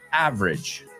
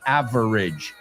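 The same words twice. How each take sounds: First: The middle vowel is dropped, giving two syllables. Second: The middle vowel is pronounced, giving three syllables. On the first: The speaker calls it right. "nos comemos la E del medio" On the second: The speaker calls it wrong. "Nobody says average"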